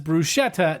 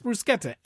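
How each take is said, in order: First: The 'ch' is a soft sound, not k. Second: The 'ch' is a hard k sound. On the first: The speaker calls it wrong. "knock it off" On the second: The speaker calls it right. "C H is pronounced as a hard K sound"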